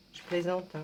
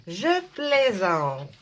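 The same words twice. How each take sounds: First: Said in the usual way. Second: Drawn out with a laugh. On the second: Real, not acted. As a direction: laugh it off slowly.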